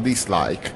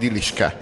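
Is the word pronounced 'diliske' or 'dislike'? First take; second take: dislike; diliske. First: It is read as two syllables, dis-like. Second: It is read as four syllables, di-lis-ke. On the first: The written word was read as intended. The speaker calls it right. "aztán értettem meg, hogy az a dislike" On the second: The written word was misread. The speaker calls it wrong. "a dislike-ra úgy félreolvastam, hogy diliske"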